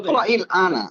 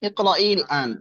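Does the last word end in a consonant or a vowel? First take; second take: vowel; consonant. First: The last word ends with a vowel. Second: The last word ends with a consonant. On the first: "ইকরাইল আনাও বললে হবে।" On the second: "লাস্টে ওটা জজম করে দিব, ইকরাইল আন বললে হবে"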